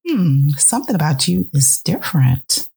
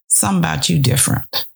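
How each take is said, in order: First: It sounds approving, welcoming the change. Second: It sounds suspicious, disapproving of the change.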